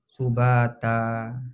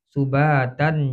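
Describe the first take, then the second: First: The word ends on a vowel, no n. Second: The word ends with a final n sound. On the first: The reader stops at this word. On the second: The reader carries on without stopping.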